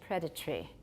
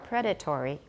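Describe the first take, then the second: First: It is said with a reduced, shorter syllable count. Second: It is said with four full syllables. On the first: "But in British" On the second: "Has four"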